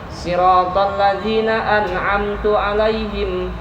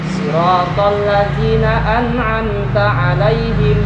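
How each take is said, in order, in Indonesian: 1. Kata an'amtu berakhir dengan vokal u. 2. Kata an'amta berakhir dengan vokal a.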